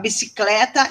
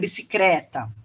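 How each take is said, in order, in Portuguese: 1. O grupo é pronunciado com som de L. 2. O grupo é pronunciado com som de R. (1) "a alternância do L e do R" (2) "a alternância do L e do R"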